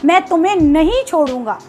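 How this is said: It is said in a harsh, angry tone. The speaker is threatening to harm the listener. "अगर हम गुस्से में बोलें"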